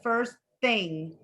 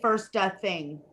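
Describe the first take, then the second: First: The T of first is cut off, no vowel. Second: An extra vowel sound follows the T of first. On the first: The speaker calls it right. "Did you see how I'm not putting?" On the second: The speaker calls it wrong. "Don't say first uh, thing"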